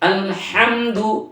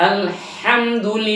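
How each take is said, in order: Both takes have the same delivery.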